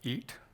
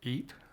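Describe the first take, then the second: Both takes have the same delivery.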